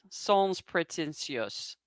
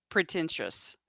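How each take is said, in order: First: "sans pretentious" said slowly and softly in a French accent; slow, soft French-accented "sans pretentious" with "sans" sounding French; English with a French accent. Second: Said in the usual way. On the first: Shown as a demonstration. Explaining blue collar to a French friend, in a French accent. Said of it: "only with a little different accent". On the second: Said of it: "Do you like how I say things".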